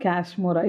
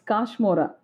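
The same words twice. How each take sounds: First: The first syllable sounds like the word cash. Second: The first syllable does not sound like cash. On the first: The speaker calls it wrong. "It's not Kashmora. ... You're talking about cash" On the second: The speaker calls it right. "It's Kashmora. That's the way I say it"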